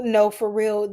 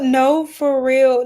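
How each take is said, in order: First: Said in the usual way. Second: Slow and louder, each word leaned on; "No, for real." drawn out and insistent; emphatic. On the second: Shown as a demonstration.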